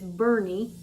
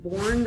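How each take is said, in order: First: Two syllables, the first with a vowel like 'burn'. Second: One syllable, with a vowel like in 'born'. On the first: The speaker calls it right. "but it's Bernie is how you pronounce it" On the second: The speaker calls it wrong. "it looks like Bourne"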